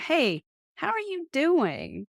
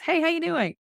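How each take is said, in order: First: It sounds like a sincere, interested question. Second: It sounds like a casual, passing greeting.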